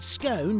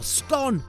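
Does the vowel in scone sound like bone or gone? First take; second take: bone; gone. First: The vowel rhymes with the word bone. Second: The vowel rhymes with the word gone. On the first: It is seen as the posh way. "to rhyme with bone" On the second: It is seen as the commoner way. "as in gone"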